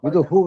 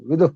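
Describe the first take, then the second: First: The word ends with an added 'hu' syllable. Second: The word ends without any added syllable. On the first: The speaker calls it wrong. "నిజానికి విదు హూ కాదు" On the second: The speaker calls it right.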